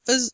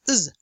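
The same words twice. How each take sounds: First: It is said with a weak schwa vowel. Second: It is said with the vowel left out. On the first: "you may say uz" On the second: "or simply just uz"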